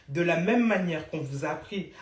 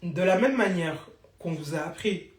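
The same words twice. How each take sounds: The two takes are said the same way.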